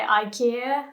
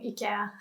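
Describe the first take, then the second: First: "ikea" as eye-KEE-uh, rising; English pronunciation. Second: "ikea" as ee-keh-ah, dropped softer; corrected pronunciation. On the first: Teacher admitting how she says it in English, English pronunciation. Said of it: "I would definitely say". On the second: Teacher saying what she should be saying, quieter correction. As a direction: say "ikea" softly with ee at the start. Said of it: "I should be saying". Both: Shown as a demonstration.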